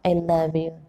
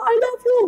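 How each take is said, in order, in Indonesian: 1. Diucapkan dengan pelan dan lembut. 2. Diucapkan dengan keras dan kasar. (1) "Pelan-pelan pun sudah terdengar" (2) "Nggak perlu"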